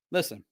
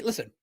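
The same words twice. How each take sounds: First: Quiet repeat. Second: Said in the usual way. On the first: Shown as a demonstration. Repeating listen to the audience, much softer and lower. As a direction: drop to a soft, low listen.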